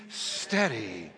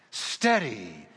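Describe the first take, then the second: First: Said in the usual way. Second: Low, slow, drawn-out Steady. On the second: Shown as a demonstration. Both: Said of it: "Can you say that word with me?".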